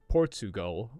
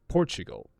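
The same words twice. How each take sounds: First: The middle sound is a plain t. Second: The middle sound is a ch. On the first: The speaker calls it wrong. "It's spelled Portugal, but we don't say it like that" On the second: The speaker calls it right. "We say Portugal. And this ch sound has appeared"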